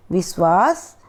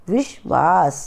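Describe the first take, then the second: First: विश्वास said as "विस्वास" with s; विश्वास using a dental स instead of श; wrong sibilant. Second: विश्वास said with श, "विश्वास"; विश्वास with a clear palatal श sound; correct sibilant. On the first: (गलत उच्चारण: विश्वास को "विस्वास") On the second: (सही उच्चारण: विश्वास, श के साथ) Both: Shown as a demonstration. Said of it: "ध्यान से इनका उच्चारण करना है".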